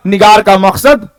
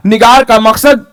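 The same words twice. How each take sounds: The two takes are said the same way.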